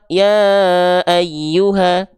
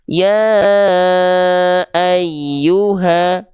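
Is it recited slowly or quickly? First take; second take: quickly; slowly. First: It is recited quickly, with a shorter vowel. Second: It is recited slowly, with a long vowel.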